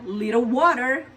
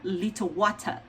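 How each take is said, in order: First: It is said in an American accent. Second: It is said in a British accent.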